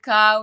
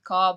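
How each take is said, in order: First: The vowel sounds like the one in how. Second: The vowel sounds like the one in saw. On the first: "You can pronounce it cow" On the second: "you can pronounce it caw, but um, officially we pronounce it as caw"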